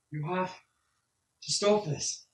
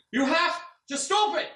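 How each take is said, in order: First: Raised, pleading voice rising to a demand; tearful NPC pleading with the old man; urgent plea. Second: High, loud, slow desperate yell; tearful NPC yelling at the old man. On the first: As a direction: beg him to stop it, getting louder. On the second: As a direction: scream it at him, grabbing him. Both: Acted. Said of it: "he kinda yells at you".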